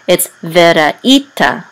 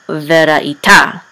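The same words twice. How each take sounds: First: Veraita stressed on the right syllable, slowly; correct stress. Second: Veraita stressed on the wrong syllable, slowly. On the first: Teacher showing the correct stress on veraita. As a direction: say veraita with the stress where the trope marks it. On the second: Teacher showing how not to stress veraita. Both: Shown as a demonstration. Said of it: "not veraita".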